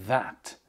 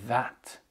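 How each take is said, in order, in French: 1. La voyelle est un son 'a' plein et ouvert. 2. La voyelle est un son 'a' plein et ouvert.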